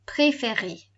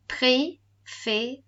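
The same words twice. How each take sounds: First: "préféré" as one word, every é "ay", falling at the end; joined-up model. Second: Very slow "préféré", a gap after each "ay" syllable. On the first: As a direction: run the syllables of préféré together. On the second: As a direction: split préféré into pré, fé, ré. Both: Shown as a demonstration. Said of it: "that makes that A sound".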